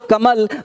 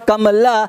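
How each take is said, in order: First: The word ends on the 'l' sound. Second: The word ends with a full 'a' vowel. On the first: The speaker calls it right. "Last में जब कमल बोलते हैं तो short sound होता है" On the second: The speaker calls it wrong. "हर letter का एक अपना लंबा साउंड होता है"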